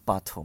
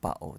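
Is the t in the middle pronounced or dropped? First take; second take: pronounced; dropped. First: The t in the middle is clearly pronounced. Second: The t in the middle is dropped, London-style.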